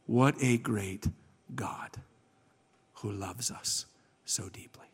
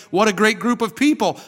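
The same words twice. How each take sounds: First: Slow, low reverent praise; hushed awe. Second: High, loud gushing over people; enthusiastic praise. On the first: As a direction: sink almost to a whisper, with pauses. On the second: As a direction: exclaim it brightly at raised pitch and volume. The wrong praise, then corrected. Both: Retold or imitated.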